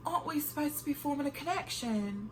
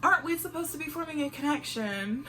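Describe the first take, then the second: First: Mock British accent, a touch softer. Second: Said in the usual way. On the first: Shown as a demonstration. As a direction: ask it like a posh Brit, half in jest. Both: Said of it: "I'm about to ask it in my British accent".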